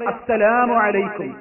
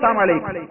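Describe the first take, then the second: First: The greeting is said at a normal, clear pace. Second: The greeting is said fast, with sounds slurred. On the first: Peace be upon you. "മുസ്ലിമീങ്ങൾ എന്താ സലാം പറയാ?" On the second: Death be upon you. "യഹൂദി വന്നിട്ട് സ്പീഡിൽ പറയും"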